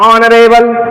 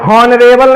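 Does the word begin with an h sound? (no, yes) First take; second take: no; yes. First: The word starts with a vowel, no h. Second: The word starts with an audible h sound. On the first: The speaker calls it right. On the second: The speaker calls it wrong. "हॉनरेबल नहीं है ये"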